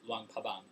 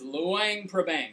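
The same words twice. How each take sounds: First: Prabang is said without any R sound. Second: Prabang is said with an R sound. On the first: This is how local people say it. "Laotian people don't don't say it, so it's Luang Luang Prabang" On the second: This follows the Thai form of the name. "But Dave Van says Luang Prabang"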